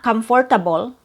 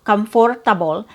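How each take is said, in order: First: It has four syllables with an R sound. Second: It has four syllables with an R sound.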